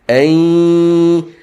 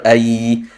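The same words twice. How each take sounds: First: The sound resonates through the nose. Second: The sound does not resonate through the nose. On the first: The speaker calls it right. "It's supposed to be ay" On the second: The speaker calls it wrong. "not ay"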